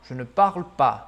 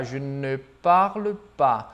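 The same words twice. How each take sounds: First: "je ne parle pas" linked as one sound; one smooth connected phrase; no pauses. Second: "je ne parle pas" drawn out syllable by syllable; halting beginner's robotic delivery; robotic, word by word. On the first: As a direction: run "je ne parle pas" together without breaks. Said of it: "Eu não dou pausa". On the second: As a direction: hold each word of "je ne parle pas" separately. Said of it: "uma pronúncia um tanto quanto robótica". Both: Shown as a demonstration.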